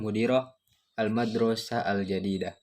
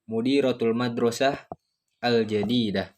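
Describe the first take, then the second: First: It runs on with no pause before the last word. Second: There is a pause before the last word. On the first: The school is the new one. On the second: The headmistress is the new one.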